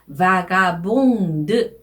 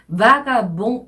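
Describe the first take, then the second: First: The final d sound is pronounced. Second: The final d sound is silent. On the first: The word is in its feminine form. "여성형일 때는 vagabond 이렇게 발음을 하셔야 되고요" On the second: The word is in its masculine form. "남성형이었을 때는 vagabond 이래서 대발음을 하지 않았죠"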